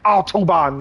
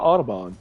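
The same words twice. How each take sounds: First: It is said harshly, in a thick accent. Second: It is said softly, in a light accent. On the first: "They literally say it like Autobahn. Like it's it sounds like it's painful for them to say" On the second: "you're just over here like the Autobahn"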